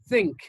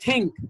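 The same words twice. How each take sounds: First: The first sound is a soft hiss. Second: The first sound is a hard stop. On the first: The speaker calls it right. "Your tongue comes out a bit, and then you pronounce it like this" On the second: The speaker calls it wrong. "This is not think"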